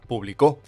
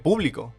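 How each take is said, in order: First: The stress is on the last syllable. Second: The stress is on the first syllable. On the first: Someone published in the past. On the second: It names the audience.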